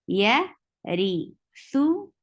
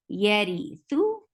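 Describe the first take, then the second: First: Yarithu stretched very slowly with a rising end; slow drawn-out demo. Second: Said in the usual way. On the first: Shown as a demonstration. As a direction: draw Yarithu out syllable by syllable. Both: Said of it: "You will give tawassut here".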